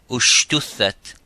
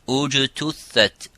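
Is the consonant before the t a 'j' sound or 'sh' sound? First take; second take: sh; j. First: The consonant before the t is an 'sh' sound. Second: The consonant before the t is a 'j' sound. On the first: The speaker calls it wrong. "instead of saying ujtuthat or ushtuthat" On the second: The speaker calls it right. "we have to be careful how to sound that letter"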